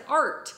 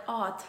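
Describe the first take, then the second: First: Said in the usual way. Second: "Art" with the R dropped, like "aht"; child's speech-impediment "Art", R missing; R-less "Art". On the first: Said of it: "but I'm sure it sounded like". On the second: Retold or imitated. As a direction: say "Art" as a long open vowel with no R. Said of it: "I couldn't say art with, like, the R".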